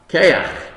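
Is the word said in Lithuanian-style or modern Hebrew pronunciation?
Lithuanian-style. The first vowel sounds like 'ay'. "Because he pronounced koach, keach"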